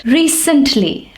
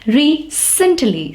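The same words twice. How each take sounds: First: Said in the usual way. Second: "recently" drawn out slowly, the C said as S; soft C demonstration. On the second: Shown as a demonstration. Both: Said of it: "It's pronounced as sir".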